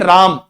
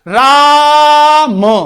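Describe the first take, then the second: First: The vowel is held for a normal length. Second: The vowel is stretched out for a long time. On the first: "एक शब्द ऐसे बोल देंगे राम" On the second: "खींच के बोलेंगे राम"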